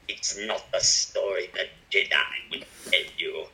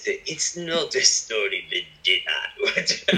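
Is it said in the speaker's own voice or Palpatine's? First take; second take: Palpatine's; own voice. First: It is said in an imitation of Palpatine's voice. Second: It is said in the speaker's normal voice.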